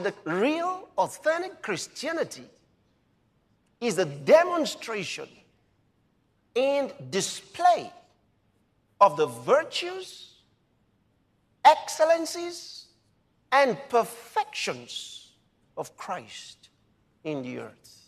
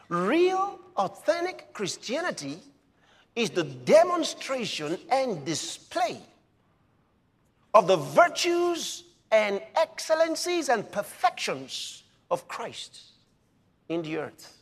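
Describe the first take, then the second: First: It is said slowly. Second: It is said fast.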